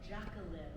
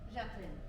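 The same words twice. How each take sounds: First: The name has an English pronunciation. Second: The name has a French pronunciation. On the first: The speaker calls it wrong. "They all pronounce it Jacqueline" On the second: The speaker calls it right. "you say it the French way"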